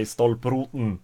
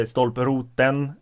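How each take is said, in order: First: "stolproten" with no vowel before the final N; northern dropped vowel. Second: "stolproten" with a clearly sounded final TEN; full last vowel. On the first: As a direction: swallow the last E in "stolproten". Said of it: "and they say". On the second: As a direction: pronounce the last E of "stolproten" fully. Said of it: "I say". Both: Shown as a demonstration.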